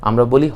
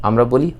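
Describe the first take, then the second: The two takes are said the same way.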